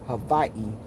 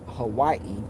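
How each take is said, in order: First: The middle consonant sounds like a v. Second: The middle consonant sounds like a w. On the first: This is how local Hawaiians say it. "the pronunciation for Hawaii is actually Hawaii" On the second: This is how mainland Americans say it. "America started calling it Hawaii"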